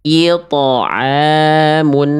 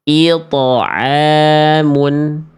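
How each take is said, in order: No difference in how they are said.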